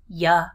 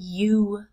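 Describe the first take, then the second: First: The word is relaxed into a short 'ya'. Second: The word has a full, strong vowel. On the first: "becoming the relaxed ya" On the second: "My strong you"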